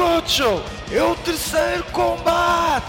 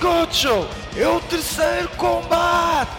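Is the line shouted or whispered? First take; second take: shouted; shouted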